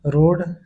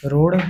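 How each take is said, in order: First: Said in the usual way. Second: रोड ending in a flapped ṛ; रोड said as रोड़. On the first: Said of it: "शुद्ध है". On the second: Shown as a demonstration. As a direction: flick the tongue on the end of रोड. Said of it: "अशुद्ध होता है".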